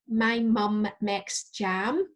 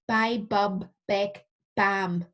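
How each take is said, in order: First: The m sounds are clearly nasal. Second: The m sounds come out blocked, like b. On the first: The speaker calls it right. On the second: The speaker calls it wrong.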